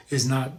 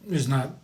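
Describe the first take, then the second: No difference in how they are said.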